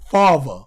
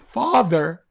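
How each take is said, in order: First: The middle th sound is replaced by another sound. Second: The middle th sound is pronounced fully. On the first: "it's father" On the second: "Instead of is it being father"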